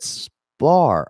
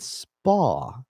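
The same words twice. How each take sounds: First: "spar" drawn right out with its final r. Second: "spa" on a long open ah, no r; "spa" without the r. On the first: Fighter clears up a mishearing, "spar" drawn out with an r. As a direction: stretch "spar" long, keeping the r. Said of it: "I thought you meant spa". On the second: Fighter explains what he thought was meant, "spa" long with no r. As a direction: stretch "spa" high and open, dropping the r. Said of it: "Oh, you said spar". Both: Retold or imitated.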